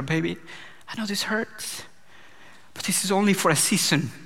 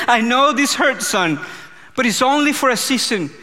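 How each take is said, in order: First: Much softer, tender reassurance; gentle comfort. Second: The Father speaking. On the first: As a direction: hush a hurting child, close and soft. Dad comforting his crying daughter. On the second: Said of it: "the Father was speaking to me". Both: Retold or imitated.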